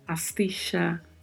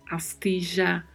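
First: The double L sounds like 'sh'. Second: The double L sounds like 'zh'. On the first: "de X ou CH" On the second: "som de J"

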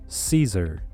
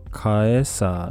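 First: The word begins with an S sound. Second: The word begins with a K sound. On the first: The speaker calls it right. "もう一度言うとCaesar、というふうに発音します" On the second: The speaker calls it wrong. "なんかそのまま読もうとするとカエサーみたいな感じですね"

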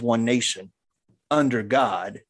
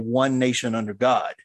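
First: There is a long pause before 'under'. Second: It flows without a pause before 'under'. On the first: The speaker calls it wrong. "everybody pauses before the word under" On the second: The speaker calls it right. "I want to say one nation under God"

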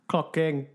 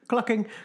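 First: The two words are said slowly and separately. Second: The two words are said fast and run together. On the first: It names the King of Clocks. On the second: It sounds like a different word.

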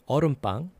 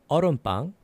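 No difference in how they are said.

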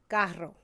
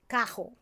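First: The middle consonant is a rolled trilled R. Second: The middle consonant is a breathy H-like sound. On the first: "instead of" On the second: "we replace a lot of the R sounds, like the rolling R's, with an H sound"

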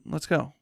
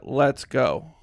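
First: It sounds like a friendly, inviting suggestion. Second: It sounds like a stern, forceful order.

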